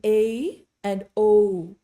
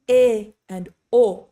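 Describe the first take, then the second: First: A and O each sliding into a second vowel; slow, English-style diphthong A and O; gliding double vowels. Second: E and O held steady with no glide; slow, crisp one-vowel E and O; pure single vowels. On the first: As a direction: stretch A and O with a glide. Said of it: "That's multiple vowel sounds". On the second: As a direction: keep E and O pure to the end. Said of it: "We're not saying". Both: Shown as a demonstration.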